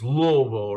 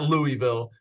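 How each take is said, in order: First: The name is slurred, syllables run together. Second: The name is said clearly, every syllable sounded. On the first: The speaker calls it right. "Like, like you have marbles in your mouth" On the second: The speaker calls it wrong. "I know it's not Louisville"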